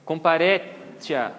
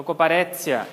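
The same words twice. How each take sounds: First: "Comparetia" slowly, ending in "tchia"; TI as CHI. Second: "comparetia" ending in "tsia". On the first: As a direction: draw out "Comparetia" with a CH sound. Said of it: "então comparetia". ("Comparetia" devagar, com "tchia") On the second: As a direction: put a TS sound in "comparetia". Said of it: "Equivale ao som de T S". ("comparetia" com som de TS) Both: Shown as a demonstration.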